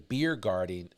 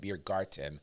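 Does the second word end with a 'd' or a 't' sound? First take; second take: d; t. First: The second word is said with a 'd' sound. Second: The second word is said with a 't' sound.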